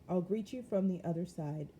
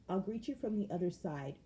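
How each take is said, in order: The two takes are said the same way.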